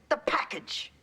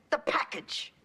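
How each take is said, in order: Both takes have the same delivery.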